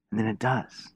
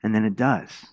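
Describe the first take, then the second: First: Hushed echo. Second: Said in the usual way. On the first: Shown as a demonstration. Preacher to congregation, repeating the storm's obedience, hushed. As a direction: repeat it softer, almost under the breath.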